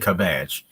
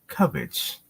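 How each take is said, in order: First: The first syllable sounds like cab. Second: The first syllable sounds like cub. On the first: The speaker calls it wrong. "But don't say cabbage" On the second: The speaker calls it right. "it's pronounced cabbage"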